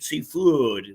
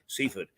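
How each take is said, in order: First: It is said with the local pronunciation. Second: It is said with the common pronunciation. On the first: This is how people from the town say it. "which is the way that locals uh, pronounce it" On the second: This is how most outsiders say it. "whereas most would say"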